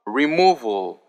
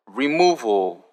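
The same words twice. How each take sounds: The two takes are said the same way.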